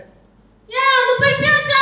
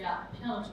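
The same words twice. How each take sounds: First: Much higher, loud bark of an order; high scolding shout. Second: Low, soft, menacing command; low scary order. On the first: Teacher demoing a high, loud order to kids. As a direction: yell at the kids in a high sharp voice. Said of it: "이거 높죠?". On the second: Teacher demoing a low, quiet threatening order. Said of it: "이것도 무서워요". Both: Shown as a demonstration.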